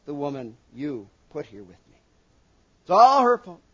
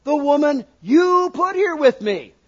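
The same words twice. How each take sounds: First: Said in the usual way. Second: "here" hit high and loud, pointing the blame; accusing stress. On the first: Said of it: "but that's what he said". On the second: Shown as a demonstration. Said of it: "he didn't say it with that inflection".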